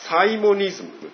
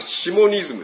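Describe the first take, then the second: First: The word begins with the sound 'sai'. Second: The word begins with the sound 'shi'. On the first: "あるいはサイモニズムというふうに読むこともできる、そういう発音もある" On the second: "まあ、シモニズムですよ。"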